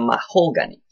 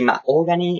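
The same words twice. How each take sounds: First: The h sound in the middle is pronounced. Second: The h sound in the middle is dropped. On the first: The speaker calls it right. "instead of mahogany" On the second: The speaker calls it wrong. "we don't pronounce the H, so that's why I simply say mahogany"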